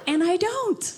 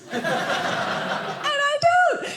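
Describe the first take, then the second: First: Said in the usual way. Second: And I don't stretched slow and higher; slow, pointed And I don't; coy, teasing And I don't; drawn out. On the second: Shown as a demonstration.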